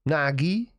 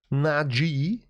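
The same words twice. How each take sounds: First: Nagi with a hard g, as a self-correction; Nagi, the second attempt; corrected name. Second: Naji, the uncertain version; first try at the name. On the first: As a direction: land on Nagi instead of Naji. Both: Shown as a demonstration. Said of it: "Don't know how to say it properly".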